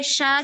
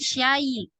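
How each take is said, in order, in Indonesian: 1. Suku katanya berakhir di vokal biasa. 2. Suku katanya berakhir dengan tambahan bunyi y. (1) "sya jangan syai" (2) "jangan syai"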